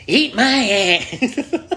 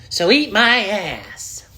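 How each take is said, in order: First: Very slow, high, rising odd voice; slow, high goofy voice; weird voice. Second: Slow, high odd put-on voice; slow, high goofy voice; weird voice. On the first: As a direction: stretch it out in a silly voice. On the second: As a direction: drag it out in a strange voice. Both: Real, not acted. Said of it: "I don't even know what voice that is".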